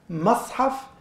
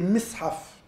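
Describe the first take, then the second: First: The first vowel is an a sound. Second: The first vowel is an i sound. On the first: The place where pages are gathered. "se prononce déjà de trois manières différentes" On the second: The tool that holds pages together. "se prononce déjà de trois manières différentes"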